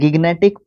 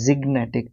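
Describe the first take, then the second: First: The word begins with a hard G sound. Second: The word begins with a J sound. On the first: The speaker calls it wrong. "मैं इसको गिग्नेटिक पढ़ता हूँ" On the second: The speaker calls it right. "But ये ज़िग्नेटिक होता है"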